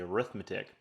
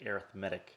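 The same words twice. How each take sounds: First: The stress falls on the second syllable. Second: The stress falls on the third syllable. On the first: It names the math of adding and subtracting. "I would say arithmetic" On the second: It describes a kind of number sequence. "I definitely say arithmetic"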